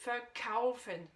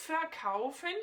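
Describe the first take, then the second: First: "verkaufen" with a light "ver" and weight on "kau"; slow "verkaufen", prefix unaccented; stress on KAUFEN. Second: "verkaufen" with some extra weight on the prefix "ver"; stress on VER. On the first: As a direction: land the accent on "kaufen" in "verkaufen", slowly. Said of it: "l'accentuation est bien sur le kaufen". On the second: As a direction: lean a little on "ver" in "verkaufen". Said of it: "je l'ai un peu accentué pour te montrer le ver". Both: Shown as a demonstration.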